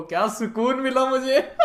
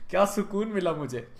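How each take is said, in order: First: Higher, louder, slow gloating through laughter; gleeful laugh. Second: Said in the usual way. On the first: Real, not acted. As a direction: savour it, laughing with glee. Savouring ex's regret. (हँसते हुए, ऊँची आवाज़ में मज़े लेते हुए)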